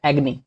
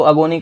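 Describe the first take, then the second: First: एग्नी said short, as eg-ni; एग्नी with the vowel dropped after g; correct pronunciation. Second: अगोनी said a-go-ni, with a long o; the common mistake, अगोनी with an o in the middle; wrong pronunciation. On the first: Teacher corrects students, एग्नी in two short syllables. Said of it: "जो कि गलत है". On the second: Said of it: "काफी लोग प्रोनाउंशिएट करते हैं, जो कि गलत है". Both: Shown as a demonstration.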